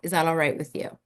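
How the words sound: The question sounds confident and assured. The speaker is sure of what is happening. The speaker calls it right. "ask for permission in a confident way"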